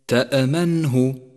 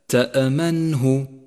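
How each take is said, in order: The two takes are said the same way.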